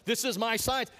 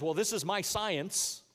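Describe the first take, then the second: First: Louder, higher mock quote. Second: Slow, drawn-out mock quote. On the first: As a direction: toss it out, mocking the phrase. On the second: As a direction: drag it out like a silly excuse. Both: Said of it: "notice how nobody says".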